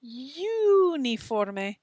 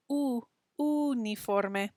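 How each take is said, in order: First: Slow "uniforme" starting with an English you sound; "uniforme" said wrongly as you-niforme; anglicized uniforme. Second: Slow "uniforme" with a pure oo at the start, no y; "U, uniforme" with a clean Spanish oo. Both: Shown as a demonstration. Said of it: "Don't say uniforme".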